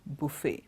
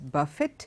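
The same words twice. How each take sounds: First: The final T sound is silent. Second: The final T sound is pronounced. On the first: The speaker calls it right. "The T is silent" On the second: The speaker calls it wrong. "It is not uh, pronounced as buffet"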